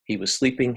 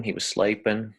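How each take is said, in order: First: Said in the usual way. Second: Sleeping said like 'slaypin'; broad Australian sleeping, 'slay-pin'; Aussie sleeping. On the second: Shown as a demonstration. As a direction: slide the EE of sleeping toward 'ay'. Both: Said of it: "a little bit of an exaggeration".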